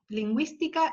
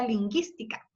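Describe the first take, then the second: First: The u sound after the g is pronounced. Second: The u after the g is silent. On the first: "la U lleva cremillas, se pronuncia" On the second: "si no yo diría lingüística, ¿no? Sería como guitarra"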